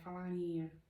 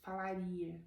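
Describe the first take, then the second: First: It is voiced through the nose. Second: It is voiced from the throat. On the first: This is how foreigners say it. "Vocês falam falaria" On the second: This is how natives say it. "A gente fala falaria com a garganta"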